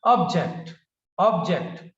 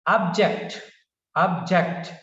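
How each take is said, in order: First: First syllable of object punched; stress on first syllable. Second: Second syllable of object punched; stress on second syllable. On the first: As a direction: object with OB hit hard, then falling. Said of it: "stays on first syllable". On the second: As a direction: object with the weight on JECT. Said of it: "stays on second syllable". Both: Shown as a demonstration.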